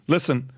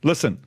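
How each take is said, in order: Both takes have the same delivery.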